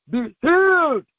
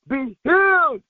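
No difference in how they are said.

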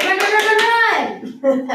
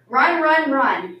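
First: High, loud, rapid-fire shouts; urgent urging. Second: First words raised, last falling away; reading out words. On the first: Acted. Teacher clapping at children who just sat, urgently shouting. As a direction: drive them on with repeated cries. Urges seated children to run. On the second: A narrator's reading. Teacher reading a book's words to seated children, read-aloud delivery. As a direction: read it out as a line from a book. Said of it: "It says".

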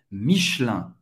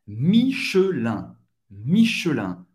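First: "Michelin" as mish-LAN, middle E dropped; fast native French. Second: Slow "Michelin" as mee-shø-LAN, middle E sounded; careful three syllables. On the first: Teacher showing how natives say it, fast French pronunciation. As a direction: run "Michelin" together in two syllables. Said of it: "Pronunciado rápido em francês nativo seria". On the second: Teacher modelling before the native version, careful syllables. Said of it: "Pronunciado rápido em francês nativo". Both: Shown as a demonstration.

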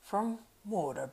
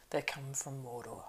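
First: Higher, slow stress on Mordor; emphatic repetition. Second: Slow, softened, ominous reveal; low voice. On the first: Strider pressing the innkeeper, emphatic stress on Mordor. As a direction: draw out Mordor, raised for emphasis. Strider repeats the dread name. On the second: Strider naming Mordor to the innkeeper, low voice. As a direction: drop the voice and slow right down. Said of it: "in a low voice". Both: A narrator's reading.

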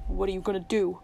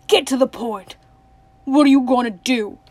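First: Low, hoarse question. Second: Loud, impatient outburst; crying out. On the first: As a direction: ask it hoarsely, keeping it down. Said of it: "Tuck said hoarsely". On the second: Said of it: "cried Tuck". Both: A narrator's reading.

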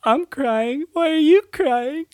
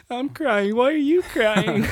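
First: High, loud teary squeak; wife's sniffly crying quote. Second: High, loud teary squeak breaking into laughter; crying quote again. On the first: Imitating his crying wife asking why he cries. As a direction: squeak it out through sniffles, half laughing. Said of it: "in between her sniffles just goes". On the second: Retelling his wife's tearful question, laughing. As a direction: squeak it through tears and giggles. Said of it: "one of 'em just says". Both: Retold or imitated.

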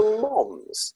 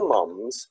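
First: "moms" with an open o vowel, drawn out; Birmingham "mom". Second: "mums" with the British short u vowel. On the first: Author showing his change to Birmingham usage, "moms" with open o. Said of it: "very common for people to say mom". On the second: Author naming the word he first wrote, "mums" with short u. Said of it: "so I'd say mum". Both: Shown as a demonstration.

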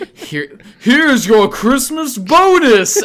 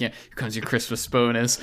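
First: Slow, high, booming announcement; accidental loud call. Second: Soft, lower murmur meant only for them; quiet aside. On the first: The wind carries the bonus line, a slow loud call. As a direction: it carries on the wind, much louder than meant. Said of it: "you say it louder than you expect". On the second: Handing the bonus over quietly, a soft aside. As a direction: keep it low and discreet. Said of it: "like, a quiet". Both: Retold or imitated.

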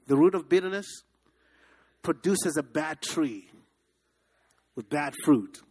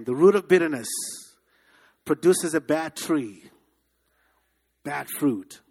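First: A preacher's chant for the crowd to repeat; call and response. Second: A preacher's louder call to repeat. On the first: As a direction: lead the congregation word by word. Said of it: "Say that with me". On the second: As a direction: drive it home louder. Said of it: "Say that again". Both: Shown as a demonstration.

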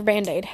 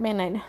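First: Said in the usual way. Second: "Band-Aid" said as "bannaid", no d; son's pronunciation. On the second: Retold or imitated. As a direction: say "Band-Aid" with the d dropped, like a toddler. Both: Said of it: "That's how he says it".

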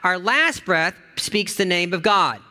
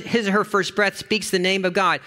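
First: "last breath" slow and weighted, falling; stress on last. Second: "first breath" lifted and weighted; stress on first. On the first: Pastor reading the devotion, slow stress on last. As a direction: dwell on "last" slowly. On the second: Pastor reading the devotion, stressing first. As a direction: lean on "first". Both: Acted.

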